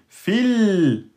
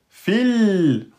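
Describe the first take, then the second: Both takes have the same delivery.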